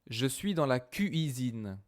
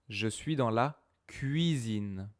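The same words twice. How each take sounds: First: The u in cuisine is a separate full vowel. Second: The u in cuisine is a quick gliding sound. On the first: The speaker calls it wrong. "Je dis pas ça" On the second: The speaker calls it right. "Je dis je suis dans la cuisine. C'est quoi ça? C'est ye"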